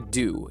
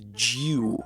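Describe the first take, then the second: First: The word begins with a plain D sound. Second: The word begins with a J sound. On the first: "in America we just would just say dew"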